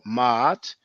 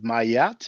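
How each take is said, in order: First: A throat catch separates the two vowels. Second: A y glide joins the two vowels. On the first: The speaker calls it right. "try to pronounce it ma'at" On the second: The speaker calls it wrong. "please don't pronounce it mayat because there's no y"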